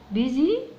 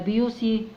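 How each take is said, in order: First: The middle consonant is a z sound. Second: It starts with byoo and has an s sound. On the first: The speaker calls it right. "هي ليها نطقها كده بيزي" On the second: The speaker calls it wrong. "ولا بيوسي"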